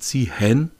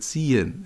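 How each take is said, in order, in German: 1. Das H in der Mitte wird ausgesprochen. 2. Das H in der Mitte ist stumm. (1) "man sagt ja nicht Ziehen" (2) "sondern Ziehen"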